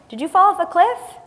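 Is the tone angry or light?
light. It is said in a light, friendly tone.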